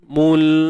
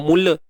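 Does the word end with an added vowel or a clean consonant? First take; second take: clean consonant; added vowel. First: The final l stops cleanly with no vowel. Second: An extra vowel is released after the l. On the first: The speaker calls it right. "matikan lam dan jangan beranakkan bunyi dia" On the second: The speaker calls it wrong. "kita tak mau mula"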